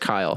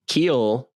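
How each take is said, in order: First: The name is said with an 'eye' vowel. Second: The name is said with an 'ee' vowel. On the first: The speaker calls it right. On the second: The speaker calls it wrong.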